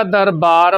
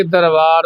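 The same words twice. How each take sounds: First: ਦਰਬਾਰ with lips closed for B; ਦਰਬਾਰ said with B, never V; clear B sound. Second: ਦਰਬਾਰ slipped into "darvaar"; ਦਰਬਾਰ said with V in place of B; mistaken V sound. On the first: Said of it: "ਬੱਬਾ ਲੱਗਿਆ ਹੋਇਆ". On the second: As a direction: loosen the ਬ in ਦਰਬਾਰ to a V. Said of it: "ਕਈ ਵਾਰੀ ਦਰਬਾਰ ਬੋਲਿਆ ਜਾਂਦਾ". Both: Shown as a demonstration.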